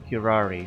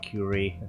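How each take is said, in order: First: The second R sound is clearly said. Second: The second R sound is left out.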